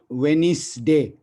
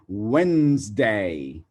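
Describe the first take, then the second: First: The middle consonant is an s sound. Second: The middle consonant is a z sound. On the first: The speaker calls it wrong. "not Wednesday" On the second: The speaker calls it right. "It goes like Wednesday"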